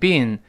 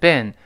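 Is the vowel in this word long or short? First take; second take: long; short. First: The vowel is long, as in British speech. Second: The vowel is short, as in American speech. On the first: "英国人呢经常读成bean" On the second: "美国人这个发音特殊，他不是发e 这个长音，而是发短音"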